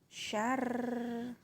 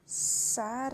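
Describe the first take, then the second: First: The word begins with a sh sound. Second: The word begins with a plain s sound. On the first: The speaker calls it right. "Syarr, bukan sar" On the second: The speaker calls it wrong. "bukan sar"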